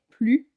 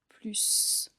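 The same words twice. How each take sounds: First: The final s is not sounded at all. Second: The final s is sounded as an s. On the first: It is part of a negation. "donc le S est muet" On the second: It names an advantage, a positive addition. "C'est pourquoi on dit plus"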